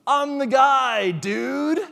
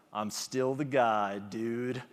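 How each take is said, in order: First: Much higher and louder, slow, cocky brag; swaggering catchphrase. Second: Slow, a touch lower, tentative mock brag; a lightly voiced loser finding a little pride; timid comeback catchphrase. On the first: Retold or imitated. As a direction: shout it like a show-off contestant. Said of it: "he comes out with this swagger". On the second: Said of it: "he kinda brightens up".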